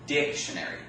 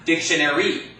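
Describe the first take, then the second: First: The stress is on the first syllable. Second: The stress is on a later syllable. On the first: The speaker calls it right. "The first syllable, right?" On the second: The speaker calls it wrong. "It's not"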